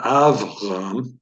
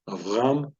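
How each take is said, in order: First: "Avram" stressed on the first syllable, AV-ram; wrong first stress. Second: "Avram" with the stress on RAM, rising; av-RAM, leaning on the end of "Avram"; stress on last syllable. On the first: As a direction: hit AV hard and slowly in "Avram". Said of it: "So it's not Avram". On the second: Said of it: "last syllable". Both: Shown as a demonstration.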